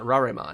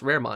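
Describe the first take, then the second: First: The first part is read like a Japanese word. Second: The first part sounds like the English 'rare'. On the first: The speaker calls it wrong. "It's not Raremon" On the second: The speaker calls it right. "It is pronounced Raremon"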